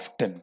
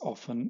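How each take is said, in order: First: It is said the American way, with a T. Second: It is said the British way, without a T.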